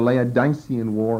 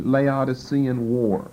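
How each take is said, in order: First: The stress is placed as in 'Laodice'. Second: The stress is placed as in 'Laodicea'. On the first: "if you want the accent as, as in the name Laodice" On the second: "familiar with pronunciations like that from the book of Revelation"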